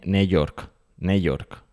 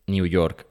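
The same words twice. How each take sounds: First: New York with New as "ne"; read as spelt. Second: New York with New as "niu"; original-language pronunciation. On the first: Host mocks literal reading, New York as "ne York". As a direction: say New York with a bare Spanish "ne". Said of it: "no dices ne-, ne". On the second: Host shows the original sound, New York as "niu York". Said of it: "en el idioma original se intenta pronunciar". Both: Shown as a demonstration.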